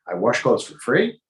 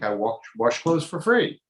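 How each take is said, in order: First: It is said as a rising question. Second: It is said as a flat statement. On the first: Washing for free would be absurd. The speaker calls it right. "even an intonation" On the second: The washing is free of charge. The speaker calls it wrong. "you didn't read it right"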